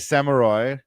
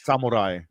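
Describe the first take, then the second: First: It is said with a plain American accent. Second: It is said with a Japanese-style accent. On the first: "It doesn't say samurai" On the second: "It's a sam- samurai"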